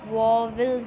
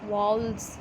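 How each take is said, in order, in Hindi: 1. यह शब्द दो सिलेबल में बोला गया है। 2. यह शब्द एक सिलेबल में बोला गया है। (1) "पहले की प्रोनंसिएशन हमारी क्या होती थी" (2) "लेकिन अब हम इसको क्या पढ़ते हैं"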